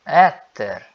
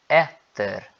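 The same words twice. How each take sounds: First: "etter" louder, final R sounded; R clearly pronounced. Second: "etter" with the final R sounded; R clearly pronounced. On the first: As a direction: repeat "etter" firmly, R at the end. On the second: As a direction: land on the R at the end of "etter". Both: Shown as a demonstration. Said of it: "eu tô pronunciando o R".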